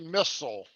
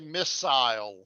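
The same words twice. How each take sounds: First: The word is said with an American pronunciation. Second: The word is said with a British pronunciation. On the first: "American English, we say missile" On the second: "British English, they say missile"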